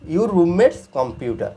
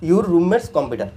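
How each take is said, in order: First: Very slow, word by word; slow classroom model; slow demo reading. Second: Said in the usual way. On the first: Shown as a demonstration. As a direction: stretch "your roommate's computer" out for learners. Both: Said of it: "computer".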